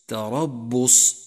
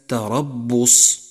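The two takes are said the same way.

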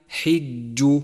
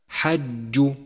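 First: The vowel after h is an i sound. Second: The vowel after h is not an i sound. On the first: The speaker calls it right. "انتبه لكسرة الحاء، فهي حج" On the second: The speaker calls it wrong. "والخطأ الشائع حج"

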